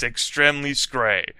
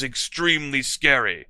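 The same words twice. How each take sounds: First: "scray" for scary, rhyming with "gray"; misspelling read literally. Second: Said in the usual way. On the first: Shown as a demonstration. Reader deliberately keeping the typo, saying "scray" for scary. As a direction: say "scray" as one syllable, "skray".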